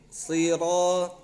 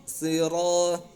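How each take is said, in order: No difference in how they are said.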